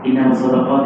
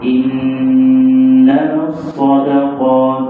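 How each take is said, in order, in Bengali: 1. শব্দগুলো দ্রুত পড়া হচ্ছে, স্বরধ্বনি দীর্ঘ না করে। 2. শব্দগুলো ধীরে পড়া হচ্ছে, স্বরধ্বনি দীর্ঘ করে। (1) "এইভাবে পড়া যাবে না" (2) "দেখছো টান কোথায় আছে"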